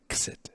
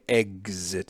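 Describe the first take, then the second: First: The x sounds like k plus s. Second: The x does not sound like k plus s. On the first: The speaker calls it right. "K plus an S sound, so it comes out as x, x, like exit" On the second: The speaker calls it wrong. "not a, exit, which is how you can you can hear it in American English"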